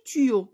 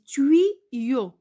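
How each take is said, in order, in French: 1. Le y se prononce comme un seul i. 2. Le y se prononce comme deux sons i. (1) "On n'a pas dit tuyau" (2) "On a dit tuyau"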